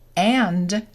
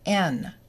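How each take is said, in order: First: The word is said in full form. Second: The word is reduced to a short n sound.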